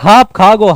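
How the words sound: The first word begins with an h sound. "स को क्या कहते हैं, ह कहते हैं"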